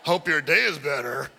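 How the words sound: It is said in a sarcastic tone.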